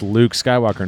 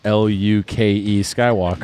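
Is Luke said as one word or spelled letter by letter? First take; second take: one word; spelled out. First: Luke is said as a single word. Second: Luke is spelled out letter by letter. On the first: The speaker calls it right. "it's Luke Skywalker" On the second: The speaker calls it wrong. "not L-U-K-E Skywalker"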